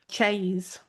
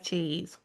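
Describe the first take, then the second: First: It is said in a broad Rotherham accent. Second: It is said in a milder Yorkshire accent.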